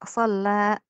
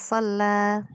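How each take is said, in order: First: The word ends with a glottal catch. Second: The word ends on an open, smooth vowel. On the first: The speaker calls it wrong. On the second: The speaker calls it right.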